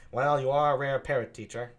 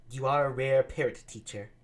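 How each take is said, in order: First: Benedick's line, taken again; Benedick, lightly mocking; Benedick redone. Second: Said in the usual way. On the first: Shown as a demonstration. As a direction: rework it as Benedick. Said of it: "I'll do it like that". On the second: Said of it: "he sounds weird".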